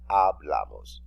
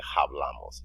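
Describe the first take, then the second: First: The word begins directly with the vowel sound. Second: The word begins with an audible H sound. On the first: The speaker calls it right. "the letter H is silent. ... you say hablamos" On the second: The speaker calls it wrong. "You don't say hablamos"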